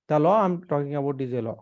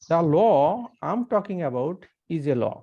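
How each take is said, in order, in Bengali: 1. এটি একঘেয়ে ভাবে বলা হয়েছে, মুখস্থ আবৃত্তির মতো। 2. এটি স্বাভাবিক কথার মতো, প্রাণবন্ত ভাবে বলা হয়েছে। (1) "কেউ যদি সরাসরি বলে যে" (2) "এই কথাটা"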